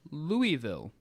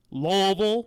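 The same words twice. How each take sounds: First: "Louisville" said as LOO-ee-vil; every syllable clear in "Louisville", silent s; "Louisville" with an "ee" in the middle; French-style pronunciation. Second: "Louisville" slurred into LUH-vul; loud, swallowed two-syllable "Louisville", like "Lovul"; mock local mumble of "Louisville" as LOH-vul; Kentuckian pronunciation. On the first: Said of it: "It's pronounced". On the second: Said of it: "known by the Kentuckians as". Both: Shown as a demonstration.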